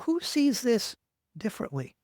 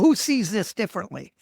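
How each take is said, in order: First: The question sounds open and genuinely curious. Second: The question sounds dismissive and condescending. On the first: It genuinely invites other points of view. The speaker calls it right. "But truly ask the question" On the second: It implies anyone who disagrees is a fool. The speaker calls it wrong. "don't say it with the wrong attitude"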